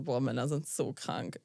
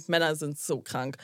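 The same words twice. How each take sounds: First: Low, slow, disgusted "Boah, Männer sind so krank", drawn out. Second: Said in the usual way. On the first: Retold or imitated. Telling her friend her reaction to the man, low and disgusted. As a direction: let the disgust sink the words low and slow. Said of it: "Ich so, wirklich original". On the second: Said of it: "wirklich original".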